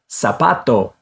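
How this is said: The first consonant is an S sound. "which sounds like an S"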